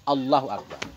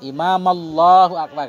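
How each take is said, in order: First: Allahu starts fresh with a clear initial A. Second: Allahu runs on from the word before it. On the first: The speaker calls it right. "Yang bagus langsung Allahu Akbar. Ada A-nya" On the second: The speaker calls it wrong. "Kita sambung kan? Kurang bagus"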